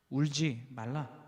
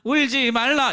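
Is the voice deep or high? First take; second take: deep; high. First: It is said in a deep, low, firm voice. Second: It is said in a higher, thinner voice. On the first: The speaker calls it right. "굵고 낮은 목소리로 ... 자상하고 따뜻하게 하지만 힘있고 분명하게" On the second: The speaker calls it wrong. "이렇게 하면 좀 이상하시잖아"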